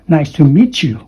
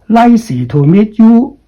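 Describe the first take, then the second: First: The words are linked smoothly together. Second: The words are said separately, not linked. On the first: The speaker calls it right. "With the nasal sound here" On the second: The speaker calls it wrong. "That is very wrong"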